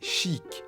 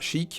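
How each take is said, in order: First: The i vowel is long. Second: The i vowel is short. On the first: The speaker calls it right. "avec un i long" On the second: The speaker calls it wrong. "Pas chic"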